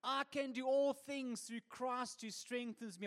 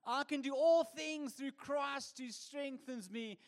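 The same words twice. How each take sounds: First: Slow, lightly voiced pious lady; lady with the cat. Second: Slow, loftier pious lady; lady with the cat. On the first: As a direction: drawl the verse like a smug churchgoer. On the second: Acted. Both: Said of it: "She says this".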